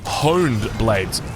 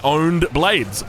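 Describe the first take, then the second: First: The first word begins with an audible H. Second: The first word begins with no H sound. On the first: "You wouldn't say honed blades" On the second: "you would drop the H. You would say owned blades"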